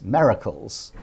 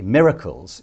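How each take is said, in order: First: "miracles" said as "merracles"; imitated mispronunciation. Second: Said in the usual way. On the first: Imitating an ambassador's unusual accent, "miracles" pronounced "merracles". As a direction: say "miracles" with the first vowel opened to "meh", like "merracles". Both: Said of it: "she pronounced it as miracles".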